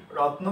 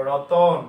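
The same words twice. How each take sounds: First: রত্ন said as two syllables, the ত and ন run together; demo pronunciation. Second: রতন said as three syllables, the new vowel after ত given clearly and loudly; demo pronunciation. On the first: Teacher contrasting two word forms, plain cluster take. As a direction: say রত্ন with the cluster, no vowel between ত and ন. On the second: Teacher contrasting two word forms, loud three-syllable take. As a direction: say রতন with a clear অ between ত and ন, louder. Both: Shown as a demonstration. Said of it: "যদি এটা বলি রত্ন থেকে".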